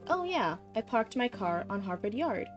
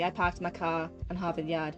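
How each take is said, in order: First: It is said in a general American accent. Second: It is said in a Boston accent.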